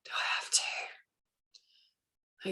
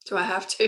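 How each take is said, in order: First: Slow, breathy reluctant whisper; a drawn-out, dreading whisper; whiny whisper. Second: Said in the usual way. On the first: Retold or imitated. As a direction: whisper it like a sulky child dragging her feet. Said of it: "And I go".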